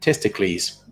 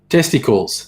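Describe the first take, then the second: First: The last syllable is said as a long 'kleez'. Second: The last syllable is said as a plain 'kulls'. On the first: "pronounced all, all the words like uh, Damocles" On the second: "you pronounce it totally differently"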